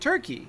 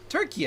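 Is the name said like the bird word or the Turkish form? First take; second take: bird word; Turkish form. First: It is said like the English bird word. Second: It is said in the Turkish form, Türkiye. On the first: This is the old English name shared with the bird. "instead of Turkey" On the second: This is the name the country asked for. "how about Turkey instead of"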